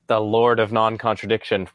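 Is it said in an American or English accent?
American. It is said in an American accent.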